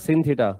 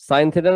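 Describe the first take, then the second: First: The first word sounds like 'sin'. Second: The first word sounds like 'sign'. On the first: The speaker calls it wrong. "সিন theta বলবা না কেন? গুণা হবে।" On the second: The speaker calls it right.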